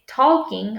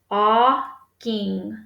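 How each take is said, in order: First: The L sound is pronounced in the word. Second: The L sound is silent in the word. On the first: The speaker calls it wrong. "But we don't say talking" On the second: The speaker calls it right. "That L is silent. We don't hear it"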